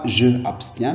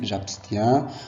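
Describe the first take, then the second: First: The vowel of je is pronounced separately. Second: The vowel of je is dropped and joined. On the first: The speaker calls it wrong. "On ne dit pas je abstiens" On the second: The speaker calls it right. "mais on dit j'abstiens"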